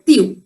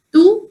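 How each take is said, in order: First: Tu said low as "tyoo"; tu with y-glide. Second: Tu said high as "too"; no y sound after the t in tu; tu without glide. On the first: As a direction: put a y sound after the t in tu. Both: Shown as a demonstration. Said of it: "both of them are accepted pronunciations".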